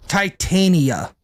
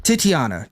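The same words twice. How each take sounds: First: "Titania" said slowly as tie-TAY-nee-uh; drawn-out, careful "Titania", stress on TAY; saying Titania. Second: "Titiana" as tih-tee-AH-nuh, lower; lower, settled "Titiana" with stress on AH; firm correction: "Titiana", tih-tee-AH-nuh; saying Titiana. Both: Shown as a demonstration. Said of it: "Guys, it's Titiana".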